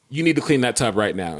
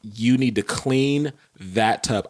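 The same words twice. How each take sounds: First: Understated, firm command; retold angry order. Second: Slow, measured, controlled fury; retold furious order. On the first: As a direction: give a controlled order, reenacting anger. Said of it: "I was so angry". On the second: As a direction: space out every word as a stern order. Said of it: "I was so furious with her".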